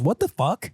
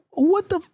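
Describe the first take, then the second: First: Put-on higher kid voice, full "What the fuck"; put-on little kid copying a parent; imitating child. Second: High "What the f-", cut on the f; self-censored curse, pitched way up; bitten on the F. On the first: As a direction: mimic a child saying the whole curse. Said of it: "she goes". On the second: Retold or imitated. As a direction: exclaim it high, stop at the f. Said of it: "When I bit on the F".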